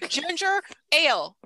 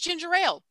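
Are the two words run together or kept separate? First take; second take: separate; run together. First: The two words are said as separate words. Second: The two words are run together as one.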